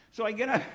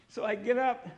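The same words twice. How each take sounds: First: Laughing. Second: Said in the usual way. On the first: Real, not acted.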